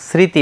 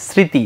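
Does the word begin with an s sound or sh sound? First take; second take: s; s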